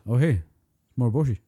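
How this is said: It is said stunted and monotone.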